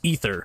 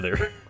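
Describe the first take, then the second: First: The word begins with an 'ee' sound. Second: The word begins with an 'ay' sound. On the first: This is how the word is said in other contexts. The speaker calls it right. "is pronounced ether" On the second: This is how most people said the game's name. The speaker calls it wrong. "everyone called it the Aether"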